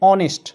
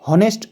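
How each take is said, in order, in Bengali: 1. শব্দটি স্বরধ্বনি দিয়ে শুরু হয়। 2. শব্দটি h ধ্বনি দিয়ে শুরু হয়। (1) "এখানে হয়েছে অনেস্ট" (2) "হনেস্ট উচ্চারণ না হয়ে"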